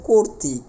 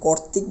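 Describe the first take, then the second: First: The first vowel is a closed 'o' sound. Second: The first vowel is an open 'aw' sound. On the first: The speaker calls it right. "বলতে হবে কর্তৃক, কয় ওকার র" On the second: The speaker calls it wrong. "কর্তৃক বলতে পারবো না"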